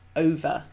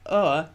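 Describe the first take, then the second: First: The word is said as two syllables, with V. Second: The word is said as one syllable, without V. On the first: "rather than two syllables, over, with the V sound" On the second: "it should be pronounced as one syllable"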